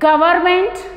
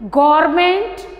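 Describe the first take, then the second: First: It is pronounced in a Hindi style. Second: The same.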